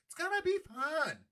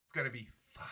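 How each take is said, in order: First: Much higher, squeaky mock delight; mock glee. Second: Said in the usual way. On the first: Host sarcastically selling West Bank property game, mock glee. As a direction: say it again way up high, gleefully fake.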